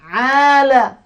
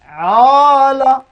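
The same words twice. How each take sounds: First: The long vowel sounds thin and light. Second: The long vowel sounds thick and heavy. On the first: The speaker calls it right. "Tipis bunyinya" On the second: The speaker calls it wrong. "Tebal bunyi pula"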